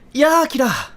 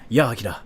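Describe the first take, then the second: First: The voice is put on at a high pitch. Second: The voice is at its natural, normal pitch. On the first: "We use like a high pitched voice" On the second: "we use like our normal voice"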